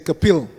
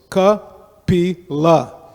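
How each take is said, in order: First: The word ends after two syllables, dropping the final vowel. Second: The word has three syllables, ending in a vowel. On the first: It is pronounced the way Hindi speakers would say it. The speaker calls it wrong. "So they say Kapil, but it's not Kapil" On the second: It is pronounced as the original Sanskrit word. The speaker calls it right. "There are three syllables. You have to pronounce all of them"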